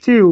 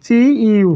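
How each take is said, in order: First: চিউ run together as one syllable; blended syllable. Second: চি ইউ said as two distinct sounds, চি then ইউ; separate syllables. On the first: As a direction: merge চি and ইউ into a single sound, চিউ. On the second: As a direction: pronounce চি and ইউ apart, with a small gap. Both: Shown as a demonstration. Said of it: "চি ইউ হয়ে যাবে চিউ".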